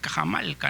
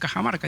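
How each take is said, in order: First: The last consonant before -ca is l. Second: The last consonant before -ca is r. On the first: "forma con la, la, letra L, la lateral" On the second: "no dice Cajamarca"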